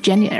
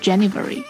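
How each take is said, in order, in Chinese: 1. 这个单词没有 v 音。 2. 这个单词多读了一个 v 音。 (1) "是January" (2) "它没有v 的吗？ 所以不是January"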